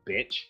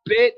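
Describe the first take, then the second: First: The word is said calmly and quietly. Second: The word is screamed loudly.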